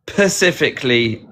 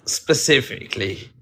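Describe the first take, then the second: First: "pacifically" with a p for the sp, on purpose; mispronounced word. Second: "specifically" with a clear sp at the start; correct pronunciation. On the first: Brit shows the mispronunciation to the hosts. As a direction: say "pacifically", dropping the s. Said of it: "Why do people say". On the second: Brit gives the correct form after the wrong one. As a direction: say "specifically" properly. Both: Shown as a demonstration.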